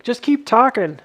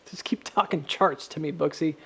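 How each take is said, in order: First: Louder, higher mock viewer plea; mock viewer egging him on; imitating viewer. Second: Said in the usual way. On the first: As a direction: play the bored viewer begging. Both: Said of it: "You're like".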